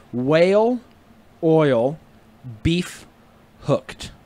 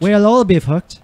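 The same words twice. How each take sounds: First: Slowly, with a gap after each word; four separate words, evenly spaced. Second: WHALE OIL BEEF HOOKED blended into one phrase; run together. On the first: Friend teaching a trick phrase, word by word. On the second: Friend trying the trick phrase, words run together. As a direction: say "We'll all be hooked" as one connected sentence. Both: Shown as a demonstration. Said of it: "Like, normal speed".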